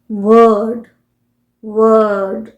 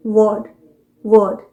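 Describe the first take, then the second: First: वर्ड stretched long with the r sounded; American pronunciation. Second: वर्ड kept short, the r silent; British pronunciation. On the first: Teacher showing the sounded r, American pronunciation. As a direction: say a drawn-out "wurrd" for वर्ड. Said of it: "American pronunciation होगा". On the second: Teacher answering her own question, British pronunciation. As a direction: say वर्ड as "wuhd", no r. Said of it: "British pronunciation क्या होगा". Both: Shown as a demonstration.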